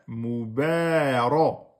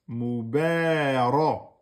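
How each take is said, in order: No difference in how they are said.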